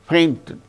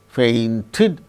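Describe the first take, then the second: First: The stress is on the first syllable. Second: The stress is on the last syllable. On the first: The speaker calls it right. "The stress should be only on the first syllable" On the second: The speaker calls it wrong. "no. The stress shall not be on the last syllable"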